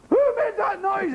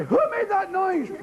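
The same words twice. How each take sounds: First: Higher mock teacher demand; stern teacher. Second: Higher mock teacher demand; a hint of a stern schoolmistress. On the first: Teacher asking the class again, mock stern and higher. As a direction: play the schoolmistress asking sharply. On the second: Teacher demanding who made the noise, mock stern.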